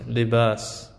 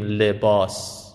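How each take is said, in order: First: لباس as li-BAAS, open front a; Arabic لباس with a fronted long aa; Arabic pronunciation. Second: لباس as le-BAWS, rounded back aa; Persian pronunciation. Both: Shown as a demonstration.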